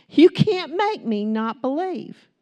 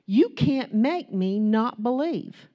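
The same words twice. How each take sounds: First: Louder, slower, higher defiant repeat; bold declaration. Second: Said in the usual way. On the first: Shown as a demonstration. Preacher declaring faith to the congregation, bold and loud. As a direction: declare it to the whole world, slowly. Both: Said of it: "Here's my declaration to the world".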